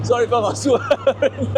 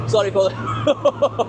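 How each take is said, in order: First: Slow apology broken by a laugh. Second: Said in the usual way. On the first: Real, not acted. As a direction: apologise while still laughing.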